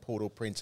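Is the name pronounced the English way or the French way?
English. The name is said with English pronunciation. This is how the horse is named. "But we call him Port au Prince"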